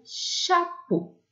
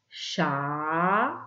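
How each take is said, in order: First: Said in the usual way. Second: "Chapeau" as a long rising "cha", long pause, "po"; split into syllables. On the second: Shown as a demonstration. Teacher showing the two syllables to write, split into syllables. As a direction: draw out and separate both syllables of "Chapeau". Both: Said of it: "Deux syllabes".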